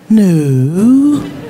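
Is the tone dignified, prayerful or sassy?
prayerful. It is said softly and prayerfully.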